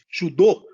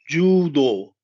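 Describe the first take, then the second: First: Both vowels are kept short. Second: Both vowels are drawn out long. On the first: The speaker calls it wrong. "tem que existir esse prolongamento" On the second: The speaker calls it right. "Existe um prolongamento no Ju e no Do"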